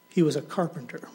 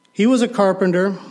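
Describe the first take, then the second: First: Said in the usual way. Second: "He was a carpenter" much louder and higher, "was" hit; loud repeat. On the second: Shown as a demonstration. The preacher driving the point home, loud. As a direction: repeat it, now proclaiming.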